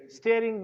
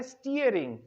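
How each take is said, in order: First: स्टीयरिंग said as stering, short e; the common mistake, स्टीयरिंग as sterring; wrong version of स्टीयरिंग; wrong pronunciation. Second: स्टीयरिंग with a long ee, stee-uh-ring; corrected स्टीयरिंग; correct pronunciation. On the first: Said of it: "ये गलत है". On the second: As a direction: stretch the ee in स्टीयरिंग. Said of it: "double ई है". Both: Shown as a demonstration.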